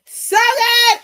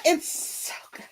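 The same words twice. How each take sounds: First: High, loud gush; high excited gush. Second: Breathy whisper of awe; whispered gush. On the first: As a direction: burst out with delight. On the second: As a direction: drop to an awed whisper. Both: Real, not acted. Gushing about the book.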